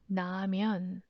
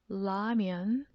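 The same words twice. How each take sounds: First: The word begins with an N sound. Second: The word begins with an L sound. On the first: "even 라면 with N sound" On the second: "with L sound"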